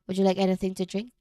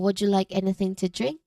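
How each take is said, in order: First: The voice stays flat at the end. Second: The voice rises at the end. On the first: The offer sounds less welcoming. The speaker calls it wrong. "without the rise" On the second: The offer sounds polite, open and inviting. The speaker calls it right. "rising voice pattern"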